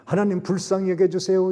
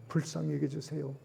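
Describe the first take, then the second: First: 불쌍히 여겨주세요 cried out much higher and louder; loud plea. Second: Fearful Ninevites praying 불쌍히 여겨주세요 quietly; soft plea. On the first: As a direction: beg 여겨주세요 at full voice. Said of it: "그들의 죄를 회개합니다". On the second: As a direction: hush 여겨주세요 as a humble prayer. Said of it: "하나님의 말씀 앞에 두려워서". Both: Acted.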